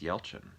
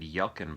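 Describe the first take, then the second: First: The middle consonant is a ch sound. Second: The middle consonant is a hard k sound. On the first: The speaker calls it right. "that's the correct way to say it" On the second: The speaker calls it wrong. "I always said Yelkin"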